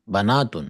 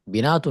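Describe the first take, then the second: First: The first vowel is an 'a' sound. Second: The first vowel is an 'i' sound. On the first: The speaker calls it right. "सब गलत पढ़ रहे हैं आप" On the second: The speaker calls it wrong. "बिनातुन नहीं"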